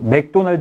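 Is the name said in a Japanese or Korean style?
Korean. It is said in a plain Korean style.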